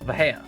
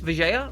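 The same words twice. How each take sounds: First: The middle consonant is an 'h' sound. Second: The middle consonant is a 'j' sound.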